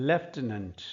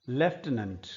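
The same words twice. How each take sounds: No difference in how they are said.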